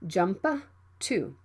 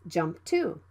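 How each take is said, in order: First: The P is fully released. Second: The P is held without release. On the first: The speaker calls it wrong. "Don't say" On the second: The speaker calls it right. "it can be unreleased"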